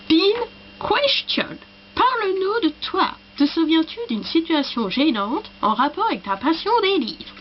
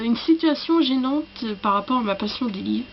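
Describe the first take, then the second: First: High, swooping mock English accent; hammed-up English accent, higher pitched. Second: Said in the usual way. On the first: Shown as a demonstration. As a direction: read it in French with a put-on English accent. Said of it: "l'accent anglais". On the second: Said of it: "que cette question-là qu'il fallait que je fasse avec l'accent".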